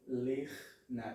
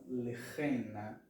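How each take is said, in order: First: The ch joins the n with no vowel. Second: A short vowel separates the ch and n. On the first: The speaker calls it right. "Lechna e não lechena" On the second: The speaker calls it wrong. "e não lechena"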